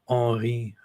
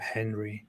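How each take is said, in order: First: The name is pronounced the French way. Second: The name is pronounced the English way.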